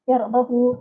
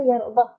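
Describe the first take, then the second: First: The h has a lengthened u vowel. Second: The h ends with no vowel. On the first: "panjangkan sikit" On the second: "Jadi iskankan ha"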